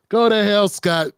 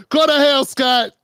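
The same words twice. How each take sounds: First: Said in the usual way. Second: Higher, louder mock yell of go to hell; yelled curse. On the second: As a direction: bark GO to hell out loud. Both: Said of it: "That's what I said".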